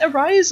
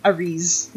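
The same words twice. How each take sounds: First: Second syllable of Arise sounds like "rise"; Arise as "a-rize". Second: Second syllable of Arise sounds like "reez"; Arise as "a-reese". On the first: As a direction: say Arise with a long I, like "eyes". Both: Shown as a demonstration. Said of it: "never pronounced the way I expect".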